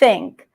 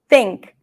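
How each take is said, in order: First: The first sound is a soft airy th. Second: The first sound is blocked and T-like. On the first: The speaker calls it right. "soften the tongue and allow air to pass softly" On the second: The speaker calls it wrong. "if we block the air, then it's going to sound like a T"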